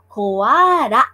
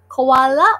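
First: The middle consonant is an R-like flap. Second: The middle consonant is a clear L sound.

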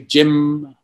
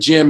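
First: The word ends with a little added buzz. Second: The word ends plainly, with no extra buzz. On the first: The character is trying to sound educated and posh. "he would say Jim, you know, like that kind of thing" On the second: This is how the name is normally said. "instead of saying Jim"

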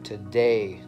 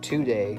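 First: The stress falls on the second syllable. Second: The stress falls on the first syllable. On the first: The speaker calls it right. "the stress is on the A, right?" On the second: The speaker calls it wrong. "not today"

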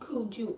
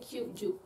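First: The word begins with a plain 'ku' sound. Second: The word begins with a 'kyu' sound. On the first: The speaker calls it wrong. "you never say kuju" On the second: The speaker calls it right. "you just say kyuju"

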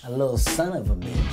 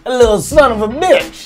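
First: It is said plainly, without extra force. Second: It is said loudly, with extra punch.

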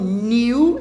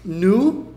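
First: The vowel glides clearly from 'ee' to 'oo'. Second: The vowel is a plain rounded 'oo' sound. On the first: "e também não é um new e news" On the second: "a pronúncia delas não é nem um nu"

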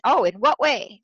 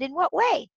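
First: It sounds sharp, defensive and judging. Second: It sounds warm, curious and non-judgmental.

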